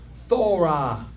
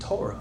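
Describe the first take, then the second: First: The word begins with a soft TH sound. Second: The word begins with a hard plain T sound. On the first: The speaker calls it right. "They both should be T H sound" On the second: The speaker calls it wrong. "we only saying Torah"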